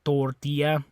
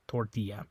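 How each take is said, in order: First: "Tortilla" with a fuller, pronounced O; Spanish tortilla. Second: Said in the usual way. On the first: Shown as a demonstration. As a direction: stress the O in "Tortilla". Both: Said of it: "the O is a little more pronounced in Spanish".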